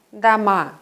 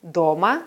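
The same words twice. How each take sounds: First: Дома said da-MA, the O reduced to A; дома as houses, last syllable stressed. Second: Дома said DO-ma, clear stressed O; Дома as at home, first syllable stressed. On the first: Teacher contrasting word forms, last-syllable stress. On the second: Teacher contrasting word forms, first-syllable stress. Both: Shown as a demonstration. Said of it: "auch Formen eines Wortes sein".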